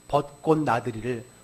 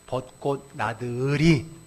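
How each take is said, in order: First: The word is pronounced in its ordinary way. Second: The ending is bent into an uiri sound.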